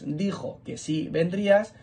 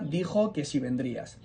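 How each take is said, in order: First: The word si is stressed and kept separate. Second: The word si is unstressed and linked on. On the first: It affirms that you would come. "como es tónico, coge fuerza y no se junta con vendrías" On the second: It asks whether you would come. "son palabras átonas y por eso se van enlazando"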